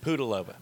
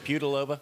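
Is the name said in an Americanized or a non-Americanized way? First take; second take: non-Americanized; Americanized. First: The name is said in its non-Americanized form. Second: The name is said in an Americanized form. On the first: The speaker calls it right. "It's Pudilova" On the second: The speaker calls it wrong. "We can Americanize it and say Pudilova"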